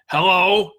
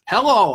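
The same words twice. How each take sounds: First: It is said in a strong, tough, deep voice. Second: It is said in an ordinary, unforced voice.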